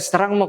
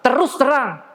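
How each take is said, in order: First: The words are slurred and the sounds run together. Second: Every sound in the words is pronounced distinctly. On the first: The speaker calls it wrong. "Kadang kita mendengar teman mengatakan" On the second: The speaker calls it right. "harus terus terang"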